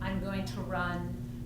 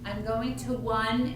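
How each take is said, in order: First: The word run begins with an R sound. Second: The word run begins with a W sound. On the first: The speaker calls it right. "instead of" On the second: The speaker calls it wrong. "still says a W, uh, W sound instead of an R"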